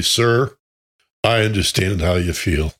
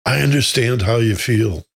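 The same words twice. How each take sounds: First: Quiet and slow. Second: Said in the usual way. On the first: Retold or imitated. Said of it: "said quietly and slowly". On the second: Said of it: "repeated as an example".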